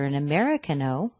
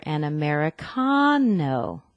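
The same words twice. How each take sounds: First: Americano stressed on MER, like American; wrong stress on MER. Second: Americano with CON drawn out and loud; stress on CON. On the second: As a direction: hit and stretch the CA in Americano as a long "con". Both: Shown as a demonstration. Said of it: "with the stress on the con".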